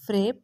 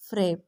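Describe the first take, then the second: First: فریب asked back with a rising end; disbelieving echo. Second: فریب said firmly with a falling end; stress on فریب. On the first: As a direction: repeat فریب as a stunned question. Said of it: "بے یقینی سے اس کا لفظ دہرایا". (فریب کو بے یقینی سے سوالیہ انداز میں دہرانا) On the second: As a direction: land hard on فریب and drop the pitch. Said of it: "لفظ فریب پہ زور دیتا". (لفظ فریب پر زور، نیچے آتی آواز میں) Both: A narrator's reading.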